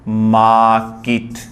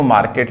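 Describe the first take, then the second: First: मार्केट as 'maaa-kit', long vowel, silent R; drawn-out slow मार्केट, no R, ending in 'kit'; correct pronunciation. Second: मार्केट with a sounded R and an 'ket' ending; common Indian pronunciation. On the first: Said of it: "लेकिन इसका होता सही क्या है?". (मार्केट को 'माऽऽ-किट', 'र' silent) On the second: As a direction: say मार्केट as 'maar-ket', R pronounced. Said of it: "अपन बोलते हैं इसको मार्केट". (आम बोलचाल वाला मार्केट, 'र' और 'केट' के साथ) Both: Shown as a demonstration.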